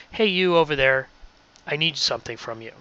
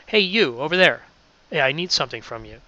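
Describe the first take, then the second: First: Said in the usual way. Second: A livelier, more animated call-out; with hand gestures. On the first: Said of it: "and I just read". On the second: Shown as a demonstration. Radio host demos reading while gesturing, more animated. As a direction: let the gestures lift the voice. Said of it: "now if I do it with hand gestures".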